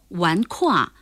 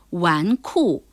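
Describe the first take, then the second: First: The second syllable is kuà, falling tone. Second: The second syllable is kù, falling tone. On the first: The speaker calls it wrong. "纨绔还真不能读成纨夸或纨胯" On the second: The speaker calls it right. "而是纨绔"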